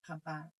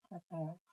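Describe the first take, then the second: First: The vowels are pronounced as 'a'. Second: The vowels are pronounced as 'o'. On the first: This is the Banyumas pronunciation. "Tapi kalau di Banyumas itu tetap apa" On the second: This is the Jogja pronunciation. "Yang Jogja itu menggunakan uh, apa vokal uh, o"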